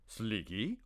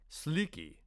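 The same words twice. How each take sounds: First: Said in the usual way. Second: Soft, coaxing call of the name; gentle prompting. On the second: Acted. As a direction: say his name gently, like a patient mentor. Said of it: "he prompted gently".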